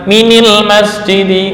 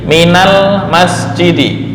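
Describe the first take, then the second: First: An 'i' vowel links min to al. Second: An 'a' vowel links min to al. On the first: The speaker calls it wrong. "bukan kasrah, bukan minil masjidi, nggak ada" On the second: The speaker calls it right. "menjadi minal masjidi"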